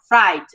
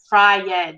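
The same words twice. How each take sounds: First: The vowel sounds merge into one syllable. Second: The vowel sounds are said apart as two syllables. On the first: The speaker calls it right. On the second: The speaker calls it wrong. "Não precisa falar cried, fried, não"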